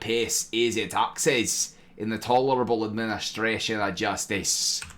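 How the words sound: It is said in a put-on Scottish accent.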